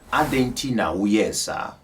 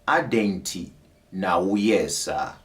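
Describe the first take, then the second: First: It is said at normal speed. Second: It is said slowly.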